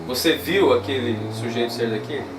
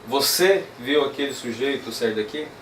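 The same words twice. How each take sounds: First: The word viu carries the strongest stress. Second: The word você carries the strongest stress. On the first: "Eu vou usar o viu como palavra tônica na mesma frase" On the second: "usar então a tônica aqui no você"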